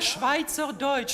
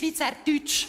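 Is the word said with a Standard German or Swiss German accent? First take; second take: Standard German; Swiss German. First: It is said with a Standard German accent. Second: It is said with a throaty Swiss German accent.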